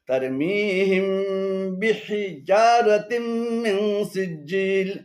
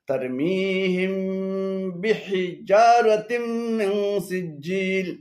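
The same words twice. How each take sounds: The two takes are said the same way.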